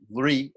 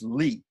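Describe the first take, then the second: First: The syllable begins with an r sound. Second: The syllable begins with an l sound. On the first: "Some people actually pronounce uh" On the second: "Li is also acceptable"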